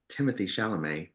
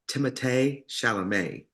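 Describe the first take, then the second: First: The name is said in an anglicized way. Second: The name is said in its original way. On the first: The speaker calls it wrong. "which is how we would pronounce it" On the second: The speaker calls it right. "the real way to pronounce it"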